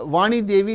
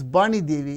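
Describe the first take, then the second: First: The name begins with a v sound. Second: The name begins with a b sound. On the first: "If there is a name like uh" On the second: "they pronounce as"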